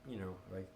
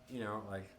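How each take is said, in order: The two takes are said the same way.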